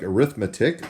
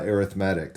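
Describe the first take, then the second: First: The stress is on the second syllable. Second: The stress is on the third syllable. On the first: It is the name of the math subject. "that word looks like arithmetic" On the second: It describes a kind of sequence. "when we put the emphasis on a different syllable"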